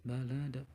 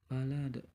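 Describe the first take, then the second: The two takes are said the same way.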